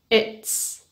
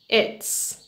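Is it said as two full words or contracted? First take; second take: contracted; contracted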